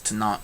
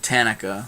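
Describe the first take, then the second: First: The word is said with two syllables. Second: The word is said with three syllables. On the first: "he says Tanakh" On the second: "I said Tanika"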